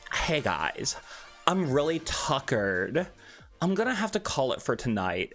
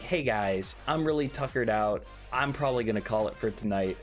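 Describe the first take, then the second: First: It is said in a zesty put-on voice. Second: It is said in his normal voice.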